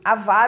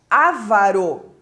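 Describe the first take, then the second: First: The stress is not on the first syllable. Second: The stress is on the first syllable. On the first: The speaker calls it right. "avaro é a pronúncia correta" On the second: The speaker calls it wrong. "como se tivesse um acento nesse primeiro A"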